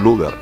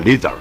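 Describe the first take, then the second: First: The first vowel is a plain back u. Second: The first vowel is a rounded front ü. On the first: This is how people usually say it locally. "normalmente aquí le dicen Luder" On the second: This is the original German pronunciation. "Se le coloca diéresis en la U, se pronuncia"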